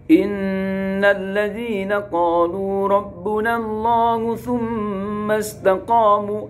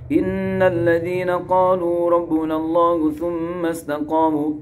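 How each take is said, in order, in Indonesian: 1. Ayat ini dibaca dengan tempo cepat. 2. Ayat ini dibaca dengan tempo sangat cepat. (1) "dibaca cepat" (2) "atau cepat lagi"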